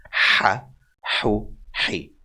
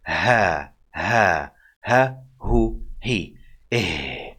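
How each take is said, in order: First: Breathy h in "Ha, hu, he" through narrowed airways; tight breathy ha. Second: Easy open h in "Ha, ha, ha, hu, he"; just let the air out of the throat on "Ha"; simple ha. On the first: Teacher shows tighter airways, breathy h. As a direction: tighten the throat on each h of "Ha, hu, he". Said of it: "the airways will be tighter to make this sound". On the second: Teacher demonstrates the simple ha, plain airy h. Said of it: "just you letting the air out from your airways". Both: Shown as a demonstration.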